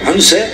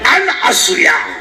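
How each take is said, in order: First: The name is run together as one word. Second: The name is split into two separate parts. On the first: The speaker calls it wrong. "अनुसया नाही" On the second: The speaker calls it right.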